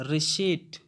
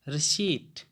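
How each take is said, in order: The two takes are said the same way.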